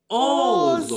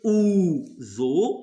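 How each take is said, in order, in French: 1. Le premier mot se prononce avec la voyelle 'o'. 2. Le premier mot se prononce avec la voyelle 'oo'. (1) "on remet ozo" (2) "on ne va pas dire ou zo"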